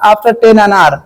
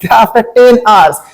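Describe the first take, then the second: First: The word 'hours' is slurred, sounding like 'anar'. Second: The word 'hours' is pronounced clearly and distinctly. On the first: It sounds like ten pomegranates. The speaker calls it wrong. "अगर आप clear नहीं करेंगे तो" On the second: It means after ten hours. The speaker calls it right. "दस अनार नहीं"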